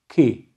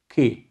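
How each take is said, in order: First: The k is made far back in the mouth. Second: The k is made far back in the mouth.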